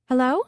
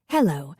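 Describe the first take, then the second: First: Hello? with a bright rising question tune. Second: Hello. lower, with a flat falling tune; caller's low voice. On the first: Dallas answering the ringing phone, rising tune. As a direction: pick up the phone and ask it upward. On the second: The caller greeting Dallas, low falling tone. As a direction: set it low and settled, a stranger on the line. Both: A narrator's reading.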